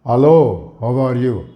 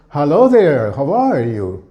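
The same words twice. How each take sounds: First: Said in the usual way. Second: Lilting "how are you"; musical greeting. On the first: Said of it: "And flat English". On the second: Shown as a demonstration. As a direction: swoop up on "are", falling away on "you". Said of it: "the music".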